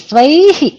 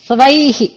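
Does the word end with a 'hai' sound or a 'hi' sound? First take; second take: hi; hi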